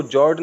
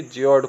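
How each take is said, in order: First: जॉर्ज as one syllable, "jord"; no i-glide, hard d ending in जॉर्ज; wrong reading. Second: ज्योर्ड as "ji-ord", with a glide; taught reading. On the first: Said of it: "इसको जॉर्ज नहीं पढ़ेंगे". (जॉर्ज को "जॉर्ड", गलत उच्चारण) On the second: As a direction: slip an i sound after j in ज्योर्ड. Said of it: "ज्योर्ड पढ़ेंगे।". (ज्योर्ड को "जिऑर्ड" पढ़ें) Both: Shown as a demonstration.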